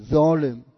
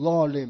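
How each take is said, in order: First: ظالم with a light, ordinary z as in Persian; Persian plain z. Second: ظالم with a heavy, emphatic Arabic first consonant. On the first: Teacher showing how Persians say it, light z in ظالم. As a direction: say ظالم starting with a simple buzzing z. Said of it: "میگیم ظالم". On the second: Teacher showing Persian speakers the sound they don't use, heavy Arabic ẓ in ظالم. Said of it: "ظالما نمیگیم ظالم، میگیم ظالم". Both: Shown as a demonstration.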